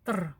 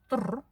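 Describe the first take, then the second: First: It is said without lip rounding. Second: It is said with lips pushed forward. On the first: "просто опуская и только оставляем две буквы" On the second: "губы вытягиваем вперед и произносим"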